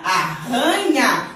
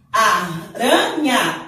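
First: Arranha said slowly with a guttural rr like h; strong double R. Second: Aranha said very slowly, light tapped R, with a laugh; soft single R. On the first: Teacher to pupils, slow strong RR demo. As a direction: breathe the RR in arranha hard. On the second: Teacher to pupils, slow tapped R demo. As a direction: tap the R in Aranha softly. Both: Shown as a demonstration. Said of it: "Olha como é diferente o som do R".

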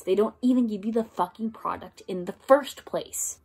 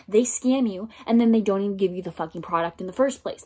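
First: "even", "fucking" and "first place" stressed, measured; emphatic repeat. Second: Fast, run-together rant; quick-fire and irritated; rapid complaint. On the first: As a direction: spell out "don't even give you" word by word. Repeats it word by word. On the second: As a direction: rush the whole line out in annoyance. Says it, then repeats for emphasis. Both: Real, not acted.

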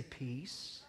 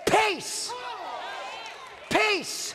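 First: Very soft, almost breathed "Peace."; calm peace. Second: Commanding shout. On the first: Shown as a demonstration. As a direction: say "Peace." softly, as if to yourself. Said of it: "He didn't just sit there and say". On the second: Acted. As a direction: command "Peace, peace," at the storm. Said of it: "And then he shouted".

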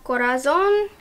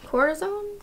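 First: Said in the usual way. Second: Corazon tried again as a rising question, pitched higher; unsure pronunciation. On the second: Shown as a demonstration. Reviewer second-guessing the shade name Corazon, unsure pronunciation. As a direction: test out Corazon with a doubtful upward lilt. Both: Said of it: "I should be saying this with a Spanish accent".

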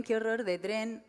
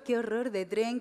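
First: "qué horror de tren" drawn out slowly, "qué" leaned on; slow, deliberate. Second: "qué" lifted, ending on a rise; stress on qué. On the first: Comic restating the line slowly with weary disgust. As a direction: spell out each word slowly with a falling close. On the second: Comic repeating the phrase with rising dismay, stress on "qué". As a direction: lean on "qué" and let it climb. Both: Shown as a demonstration.

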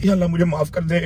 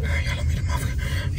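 First: Said in the usual way. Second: Whispered, slow, hammed-up plea to God; mock whispered prayer. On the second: Scared passenger whispers a mock prayer to God. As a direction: breathe a fake last prayer. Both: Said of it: "over acting की वजह से".

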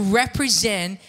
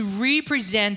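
First: Said in the usual way. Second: "represent" said as REE-pree-zent, with a long ee in RE; re-present wordplay. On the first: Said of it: "The word represent is pronounced". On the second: Real, not acted. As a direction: split "represent" into re-present, to present anew. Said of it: "adding a hyphen after the letters R E".

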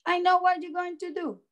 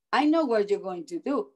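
First: Put-on high, quick child voice; knowing child. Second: Said in the usual way. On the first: A narrator's reading. Andrew tells the dentist he knows, high quick child voice. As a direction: rattle it off high, like a kid who has guessed. Andrew's line repeated, higher.

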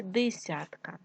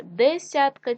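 First: Десятка said as дисятка; short i after Д in десятка; и in first syllable. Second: Said in the usual way. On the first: Shown as a demonstration. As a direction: make десятка start with ди. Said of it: "нам потрібно вставити або".

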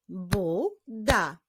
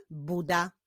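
First: "Buda" as bu, pause, da; "Buda" syllable by syllable; split into syllables. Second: Said in the usual way. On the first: Shown as a demonstration. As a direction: clap out "Buda" in two beats. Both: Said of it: "Wyklaszczmy sylaby w tych wyrazach".

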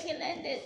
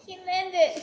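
First: Said in the usual way. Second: Loud happy call, falling at the end; excited cheer. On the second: Real, not acted. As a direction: cheer the landing loudly. Cheering a landing.

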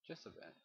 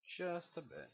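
First: Said in the usual way. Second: Higher, put-on "Just a bit"; mock voice. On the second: Player lighting the cave, higher silly repeat.

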